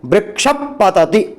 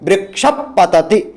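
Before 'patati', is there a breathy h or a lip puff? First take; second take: lip puff; lip puff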